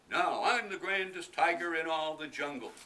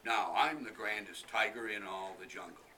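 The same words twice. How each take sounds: First: Loud, higher strutting tiger; boasting tiger. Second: Loud strutting tiger, nearer normal pitch; a lighter vain tiger boast. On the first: Tiger walking off in the shoes, loud proud boast. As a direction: crow it like a vain tiger. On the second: Tiger leaving with the umbrella, loud proud boast. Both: Acted.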